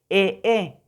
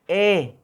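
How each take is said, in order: First: The vowel is said twice in a row. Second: The vowel sound is held longer. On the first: The speaker calls it wrong. "eso no existe, eso no es así" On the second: The speaker calls it right. "La prolongada sería E"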